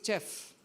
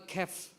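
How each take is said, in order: First: The word begins with a ch sound. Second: The word begins with a hard k sound. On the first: "they have learned something like uh, chair" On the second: "they have also written character"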